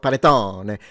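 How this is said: The word is said in an exaggerated put-on accent. The speaker calls it wrong. "not panettone. So he has the fake accent"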